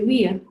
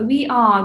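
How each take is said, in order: First: Said as one contracted syllable. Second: Said as two full separate words. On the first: "we say we're" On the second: "Instead of uh, we are"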